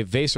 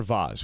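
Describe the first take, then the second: First: VASE said to rhyme with "face"; everyday pronunciation. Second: VASE said as "vahz"; fancy pronunciation. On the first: Host offering both names for the game prop, "vase" rhyming with face. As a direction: say "vase" with a long A and an S. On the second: Host offering both names for the game prop, "vase" said "vahz". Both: Shown as a demonstration. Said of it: "whatever you'd like to call it".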